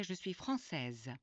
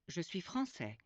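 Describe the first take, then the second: First: Française slow, with a clear z at the end; feminine ending stressed. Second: Français ending open on è, no final z; français with silent ending; masculine form. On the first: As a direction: sound the final z of française. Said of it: "a woman would say". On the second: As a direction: model the man's form. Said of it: "A Frenchman would say". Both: Shown as a demonstration.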